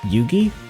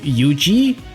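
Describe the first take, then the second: First: The G is hard, as in 'go'. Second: The G is soft, sounding like J. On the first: The speaker calls it right. "It's more of a hard G, actually" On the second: The speaker calls it wrong. "the one that sounds like a J"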